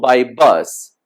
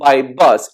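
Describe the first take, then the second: First: Said in the usual way. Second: BUS stressed as the most important word; emphasis on BUS. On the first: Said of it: "we kinda emphasize things by intonation". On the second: Shown as a demonstration. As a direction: land firmly on BUS to correct a mistake. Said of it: "the most important word".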